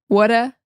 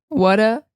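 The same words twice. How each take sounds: The two takes are said the same way.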